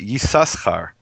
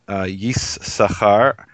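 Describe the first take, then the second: First: The second shin sound is pronounced. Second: The second shin sound is silent. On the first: This is the older tradition with the letter sounded. "according to the Ben Naphtali tradition... but Yissachar" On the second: This is the familiar reading with the letter unsounded. "that silent, wasn't originally silent... the name is not Yissachar"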